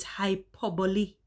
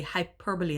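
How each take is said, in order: First: "hyperbole" said hy-PER-buh-lee, four syllables; correct pronunciation. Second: "hyperbole" said HY-per-bowl, like a bowl; refined old pronunciation. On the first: Vlogger teaching viewers the right word, correct pronunciation. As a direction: stress the second syllable of "hyperbole", end in lee. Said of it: "that is not how it is actually pronounced". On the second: Vlogger showing how she used to say it, refined mispronunciation. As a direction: her old polished "hyperbole", ending in bowl. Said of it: "I caress it and make it sound really refined".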